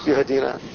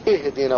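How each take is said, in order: First: The opening vowel is a u sound. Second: The opening vowel is an i sound. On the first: The speaker calls it wrong. "قاعد يضم الياء يهدينا يا كامل لحن" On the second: The speaker calls it right. "هي همزة واحدة ومكسورة"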